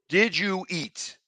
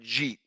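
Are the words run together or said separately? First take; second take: separate; run together. First: The words are said as separate full words. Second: The words are squeezed into one short word.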